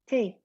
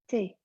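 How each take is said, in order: First: A soft T with the tongue near the teeth. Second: The same.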